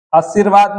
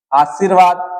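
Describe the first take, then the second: First: आशीर्वाद with short first a, "asirvaad"; wrong form. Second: आशीर्वाद with long first aa; correct form. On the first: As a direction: clip the opening of आशीर्वाद. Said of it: "आशीर्वाद नहीं होता". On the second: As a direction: open आशीर्वाद on a full "aa". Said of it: "आशीर्वाद नहीं होता है". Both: Shown as a demonstration.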